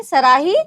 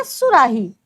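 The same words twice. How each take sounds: First: सराही said loud without the उ; wrong form. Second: सुराही with a clear उ after स; right form. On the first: Teacher contrasting सराही with सुराही. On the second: Teacher contrasting सुराही with सराही. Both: Shown as a demonstration. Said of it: "या सुराही?".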